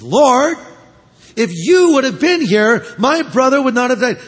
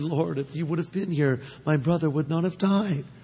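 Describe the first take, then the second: First: It is said in an upset, accusing tone. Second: It is said in a tender, gentle tone.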